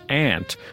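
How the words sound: It is said the general American way. This is how most of the country says it. "the rest of the country pronounces it as aunt"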